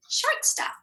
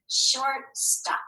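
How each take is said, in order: First: Shortstop. said again much higher; very high echo of Shortstop; echoed word. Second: Said in the usual way. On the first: Shown as a demonstration. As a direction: squeak Shortstop. up high on the repeat.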